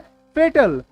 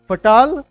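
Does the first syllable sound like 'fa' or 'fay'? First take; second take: fay; fa. First: The first syllable sounds like 'fay'. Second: The first syllable sounds like 'fa'. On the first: The speaker calls it right. "इसको बोलना है फेटल" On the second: The speaker calls it wrong. "फटाल भूल जाओ"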